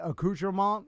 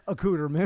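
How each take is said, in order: First: It is said with a French pronunciation. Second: It is said with an anglicized pronunciation. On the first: "your Alexa cannot say accoutrement" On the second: "it will say accoutrement"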